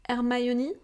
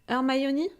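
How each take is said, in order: Both takes have the same delivery.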